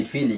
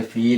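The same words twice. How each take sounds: First: "ফি, লি" as two open syllables, each ending in i; joined reading. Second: "ফিল" as one syllable closed on l; sukun at the end. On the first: Teacher shows the unpaused form, "ফি, লি" in two syllables. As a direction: say "ফি, লি" with the final i sounded. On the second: Teacher shows the jazm form, "ফিল" closed on l. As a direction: say "ফিল" with no vowel after the l. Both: Shown as a demonstration. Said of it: "কিন্তু এটা যদি জজম একটা হয়ে যায়".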